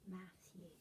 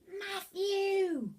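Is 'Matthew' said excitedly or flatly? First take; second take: flatly; excitedly. First: The name is read out flatly, without expression. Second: The name is called out with lively excitement. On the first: The speaker calls it wrong. "You said Matthew. Do you think Henry would have said it like that?" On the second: The speaker calls it right. "Or would he have said it like, Matthew!"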